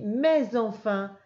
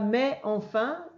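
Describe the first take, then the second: First: A Z sound links mais to enfin. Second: The S of mais is silent before enfin. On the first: The speaker calls it right. "je fais la liaison avec le S" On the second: The speaker calls it wrong. "Je dis pas"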